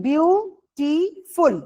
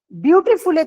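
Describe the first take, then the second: First: বিউটিফুল slowly broken into three syllables. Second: Said in the usual way. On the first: Shown as a demonstration. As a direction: say বিউটিফুল in pieces, each syllable on its own. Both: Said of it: "এরম ভাবে ভাঙছি".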